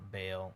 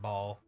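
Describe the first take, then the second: First: The vowel sounds like 'ay' in 'day'. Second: The vowel sounds like 'ah' or 'aw'. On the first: This is how the speaker's group says the name. "is what we call him" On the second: This is how others say the name. "they just pronounced it Ball"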